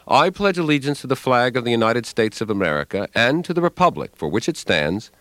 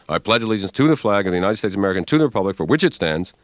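First: Each word is said separately and distinctly. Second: The words are run together into long chunks.

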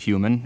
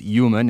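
First: The word begins with an H sound. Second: The word begins with a Y sound.

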